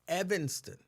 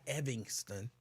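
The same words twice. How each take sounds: First: The middle syllable sounds like 'an'. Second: The middle syllable sounds like 'ing'. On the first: This is how local people say it. The speaker calls it right. "Out in Evanston, it's like it's Evanston" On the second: The speaker is trying to sound proper. The speaker calls it wrong. "they put an I N G instead of the A N because they're being really proper"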